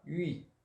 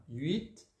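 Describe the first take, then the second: First: Huit as pouted "üi", no final T; huit, silent T. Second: Huit with pouted "üi" and a final T; huit, sounded T. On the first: Teacher showing pupils the other form, huit without T. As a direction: say huit ending on the I, T dropped. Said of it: "sem pronunciar o T". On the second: Teacher showing pupils the first form, huit with T. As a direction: say huit as "üit", T clearly released. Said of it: "pronunciando o T". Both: Shown as a demonstration.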